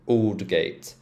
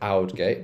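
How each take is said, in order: First: The first syllable sounds like 'all'. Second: The first syllable does not sound like 'all'. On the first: The speaker calls it right. "so all sound" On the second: The speaker calls it wrong. "there's a lot of people spell Aldgate"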